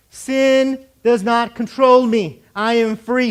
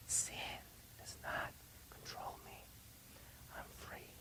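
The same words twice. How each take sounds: First: Slow, forceful proclamation; loud declaration. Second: Slow, voiceless whisper. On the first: Preacher leading the congregation's declaration, loud and slow. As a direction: declare it loud, drawing out each word. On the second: Preacher leading the congregation to whisper the declaration. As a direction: whisper it word by word. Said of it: "I want you to whisper it". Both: Shown as a demonstration.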